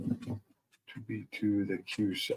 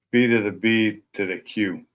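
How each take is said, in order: First: Slow, quiet, halting read; hesitant reading. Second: Said in the usual way. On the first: Real, not acted. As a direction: puzzle it out slowly under your voice. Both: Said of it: "Took me a second to read that right".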